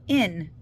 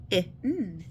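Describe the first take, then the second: First: Said in the usual way. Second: "In" split into its two separate sounds; sounded out. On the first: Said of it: "what's the first syllable?". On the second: Shown as a demonstration. Teacher breaking a syllable into sounds, "In" segmented. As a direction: sound out "In" as short i, then a held n. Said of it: "What combination of letters makes in?".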